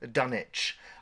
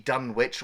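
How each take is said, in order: First: Dunwich is said like the ending of Greenwich. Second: Dunwich is said unlike the ending of Greenwich. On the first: The speaker calls it right. "it's actually pronounced Dunwich, like um, uh, Greenwich Village" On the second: The speaker calls it wrong. "all the characters in the film will call it the Dunwich"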